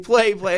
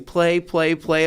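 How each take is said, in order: First: Put-on a louder, higher kid's scream for play; mock kid screaming. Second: Put-on kid's chant, only a little raised; mimicking a kid yelling. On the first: Daughter screaming to stop at the park, mock scream. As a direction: really shout it, like an insistent child. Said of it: "she starts really screaming". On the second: Daughter begging to play, mild mock yell. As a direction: lightly echo her calls. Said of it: "my daughter starts yelling".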